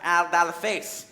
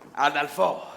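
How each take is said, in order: First: The name is said like Aldal Face. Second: The name is said like Adolfo. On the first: The speaker calls it wrong. "Not Aldal Face" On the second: The speaker calls it right. "You must say it correctly"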